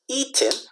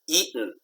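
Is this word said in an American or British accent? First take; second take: British; American. First: It is said in a British accent. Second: It is said in an American accent. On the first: "in England or in London, they say eaten" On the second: "in America, we say eaten"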